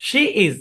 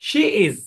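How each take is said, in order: The two takes are said the same way.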